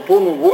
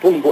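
First: A vowel is heard after the n sound. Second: No vowel is heard after the n sound. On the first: The speaker calls it wrong. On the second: The speaker calls it right.

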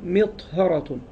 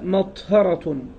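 First: The first syllable has the vowel 'i'. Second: The first syllable has the vowel 'a'. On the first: "وكسرها" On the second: "بفتح الميم"

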